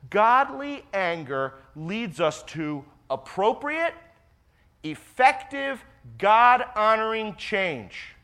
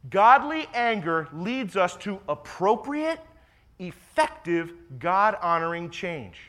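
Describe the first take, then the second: First: Slow, drawn out, each phrase weighted; slow and deliberate. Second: Said in the usual way. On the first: Shown as a demonstration. Pastor to congregation, first time through, slow and deliberate. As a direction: lay it out slowly so it sinks in. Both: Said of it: "I'll say that again".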